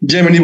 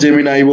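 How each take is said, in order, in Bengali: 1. নামটি 'ee' শব্দে শেষ হয়। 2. নামটি 'eye' শব্দে শেষ হয়। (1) "জেমিনি বলতে পারো" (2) "জেমিনাই বলতে পারো"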